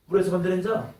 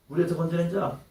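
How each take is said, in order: Both takes have the same delivery.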